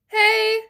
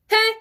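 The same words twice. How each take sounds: First: The word is held out long and sustained. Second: The word is short and cut off quickly. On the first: The speaker calls it wrong. "keep it held out like we do the pings" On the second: The speaker calls it right. "placed up top and off"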